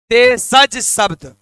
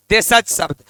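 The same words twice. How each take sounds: First: देशज शब्द drawn out slowly, each syllable held; slow drilled answer. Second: Said in the usual way. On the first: Shown as a demonstration. Teacher drilling class, says देशज शब्द very slowly. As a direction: spell it out slowly so the class repeats. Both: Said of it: "फिर से बोलिएगा".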